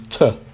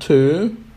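First: It is short and quick with a reduced vowel. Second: It is stressed with a full, long vowel. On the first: The speaker calls it right. "we make it shorter, we say it in a quick way without a stressed vowel sound" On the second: The speaker calls it wrong. "rather than to"

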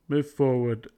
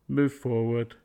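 The two takes are said the same way.

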